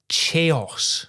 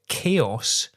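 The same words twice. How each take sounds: First: The word begins with a ch sound. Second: The word begins with a k sound. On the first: The speaker calls it wrong. "confidently pronounced it as chaos" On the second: The speaker calls it right. "tripped over the word chaos"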